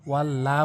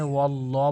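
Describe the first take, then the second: First: ওয়াল্লা ending in an open a; the wrong ওয়াল্লা with an open aa; wrong pronunciation. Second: ওয়াল্ল ending in a rounded o; correct pronunciation. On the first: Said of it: "এখানে যেই ভুলটি করি". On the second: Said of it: "এখানে ওয়াল্ল বলতে হবে". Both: Shown as a demonstration.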